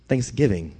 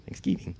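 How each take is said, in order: First: Said in the usual way. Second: Thanksgiving whispered, soft and breathless. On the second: Shown as a demonstration. Preacher repeating Thanksgiving to the congregation, whispered.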